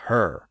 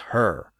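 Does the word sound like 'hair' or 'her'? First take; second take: her; her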